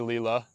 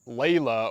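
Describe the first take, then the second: First: The name is said in an altered form. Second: The name is said in its standard form. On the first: It pays back the careless treatment. The speaker calls it wrong. "I mispronounced her name" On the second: This is the name as written. The speaker calls it right. "I looked at her name tag and it was like"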